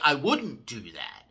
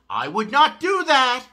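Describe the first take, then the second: First: It is said calmly, with the contraction. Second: It is said angrily, with words separated. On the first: An ordinary everyday statement. "We say I wouldn't do that" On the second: The speaker is angry or upset. "Very angry tone"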